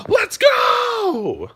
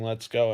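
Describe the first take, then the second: First: Huge, much higher shouted hype call. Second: Said in the usual way. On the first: Shown as a demonstration. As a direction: yell it like firing up the gym floor. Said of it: "Every time I step out on the floor and give". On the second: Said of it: "when I'm saying".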